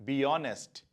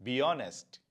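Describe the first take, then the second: The two takes are said the same way.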